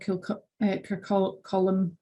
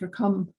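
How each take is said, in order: First: The name ends with a two-syllable 'colum' sound. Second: The name ends with a short 'cum' sound. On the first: The speaker calls it wrong. "or Kircolum" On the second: The speaker calls it right. "It's Kircum"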